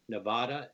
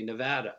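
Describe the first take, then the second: First: "Nevada" as New Yorkers pronounce it; New York pronunciation. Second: "Nevada" the way people outside New York say it; non-New York pronunciation. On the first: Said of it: "things like New York say Nevada". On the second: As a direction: say "Nevada" as the rest of America does. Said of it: "other people in the country say Nevada". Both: Shown as a demonstration.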